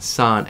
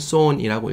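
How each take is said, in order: First: The vowel is an open 'uh' sound. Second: The vowel is a rounded 'o' sound. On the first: The speaker calls it right. "sun처럼 읽으시면 돼요" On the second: The speaker calls it wrong. "son이라고 읽고 싶으시죠?"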